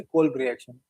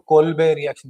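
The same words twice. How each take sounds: First: "कोल्ब" as one syllable, no final e; corrected pronunciation. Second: "कोल्बे" with an added "-bay" ending; common mispronunciation. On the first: Teacher correcting students on the reaction's name, "कोल्ब" without final e. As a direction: end "कोल्ब" on the b, without "-bay". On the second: Teacher quoting how many people say it, mispronounced "कोल्बे". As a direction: say "कोल्बे" in two syllables, ending in a long e. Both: Shown as a demonstration. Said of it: "कोल्बे नहीं है, कोल्ब reaction".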